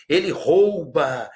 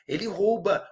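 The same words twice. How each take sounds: First: "rouba" slow, with the "ou" diphthong; careful slow "Ele rouba"; correct pronunciation. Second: "rouba" said "róba" with an open o; mock the open-o "rouba"; mocking wrong "rouba", higher; wrong pronunciation. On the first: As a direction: say "rouba" with a clear ou. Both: Shown as a demonstration. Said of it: "não tem nada de rouba".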